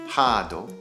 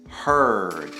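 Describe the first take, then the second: First: It has an extra vowel added at the end. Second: It ends on a consonant with no added vowel. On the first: The speaker calls it wrong. "Try not to say hado" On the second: The speaker calls it right. "Try to say heard"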